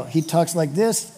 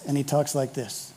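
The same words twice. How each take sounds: First: Slow, slightly lifted at the end; one way of talking. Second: Low, much softer voice; other way of talking. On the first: Cambodian saying about a two-faced guy, first manner of talking. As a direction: show one manner of talk, ending up. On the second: Cambodian saying about a two-faced guy, low hushed second manner. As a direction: drop down into a private undertone. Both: Acted.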